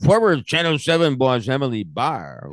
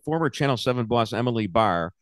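First: It is said in a put-on character voice. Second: It is said in the speaker's normal voice.

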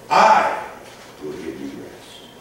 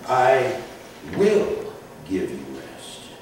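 First: The stress is on "I". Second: The stress is on "will".

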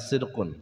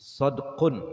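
First: The first vowel is an i sound. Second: The first vowel is an a sound. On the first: The speaker calls it wrong. "bukannya sidqun" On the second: The speaker calls it right.

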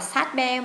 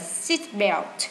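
First: The first word is said like 'sat'. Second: The first word is said like 'seat'. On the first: The speaker calls it wrong. "chúng ta không đọc là sat belt" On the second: The speaker calls it right. "mà chúng ta đọc là seat belt"

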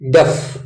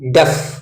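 The two takes are said the same way.

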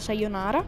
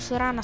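First: The name is said with every syllable. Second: The name is said with syllables dropped. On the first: The speaker calls it right. "si pronuncia Sayonara" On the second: The speaker calls it wrong. "tutti quelli che dicono Sorana sbagliano"

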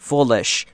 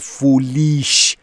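First: The vowel in the second syllable is short. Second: The vowel in the second syllable is long. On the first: The speaker calls it right. "آی کوتاهه" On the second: The speaker calls it wrong. "پس نمیگم foolish"

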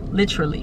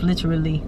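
First: The word is said with three syllables. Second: The word is said with four syllables. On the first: "or is it just literally? ... Three syllables" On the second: "is it four syllables"

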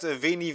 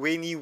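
First: The word begins with a V sound. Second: The word begins with a W sound. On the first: This is the usual modern pronunciation. "statt Veni" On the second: This is how the Romans supposedly said it. "dass es als Ue ausgesprochen wurde"

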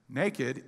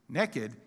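First: The first vowel is a long 'ay' sound. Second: The first vowel is a short 'eh' sound. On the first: Having no clothes on. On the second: Having no clothes on and being up to something.

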